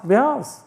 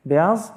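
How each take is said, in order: First: "Beyaz" said firmly with a settled falling tune; confirmed word. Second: "Beyaz" tried out with a rising, unsure question tune; questioning try. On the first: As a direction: land "Beyaz" as the final answer. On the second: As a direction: test the Turkish word "Beyaz" as a question. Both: Shown as a demonstration.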